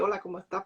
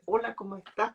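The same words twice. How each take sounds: First: It sounds uninterested and indifferent. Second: It sounds sincere and caring.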